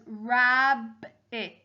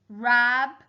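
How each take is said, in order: First: Said in the usual way. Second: "Rabbit" as rab, pause, bit; split into syllables. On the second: Shown as a demonstration. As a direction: sound out "Rabbit" in two separate beats. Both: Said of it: "using the syllables to help me".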